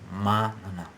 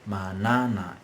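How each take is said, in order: First: The stress is on the first syllable. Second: The stress is on the second syllable. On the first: The speaker calls it right. "we stress the antepenultimate syllable" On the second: The speaker calls it wrong. "It's not manana"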